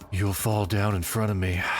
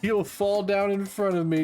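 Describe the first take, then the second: First: It is read in a suggestive, flirtatious tone. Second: It is read in a plain, neutral tone.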